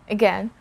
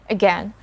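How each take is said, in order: No difference in how they are said.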